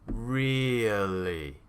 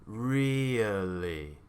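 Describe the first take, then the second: No difference in how they are said.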